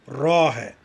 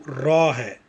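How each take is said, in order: The two takes are said the same way.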